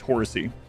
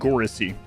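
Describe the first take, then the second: First: The name begins with an H sound. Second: The name begins with a hard G sound. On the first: "Maybe the G is an H sound for you" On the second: "I'm going to go with uh"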